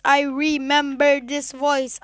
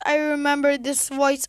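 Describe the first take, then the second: First: "I remember this voice" drawn out slowly; slow, emphatic repeat. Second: Said in the usual way. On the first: Real, not acted. Listener recognising the narrator of "this voice", slow and emphatic. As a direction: stretch "remember" out word by word.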